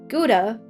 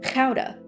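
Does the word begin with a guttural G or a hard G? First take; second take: hard G; guttural G. First: The word begins with a hard G sound. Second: The word begins with a guttural G sound. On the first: The speaker calls it wrong. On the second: The speaker calls it right.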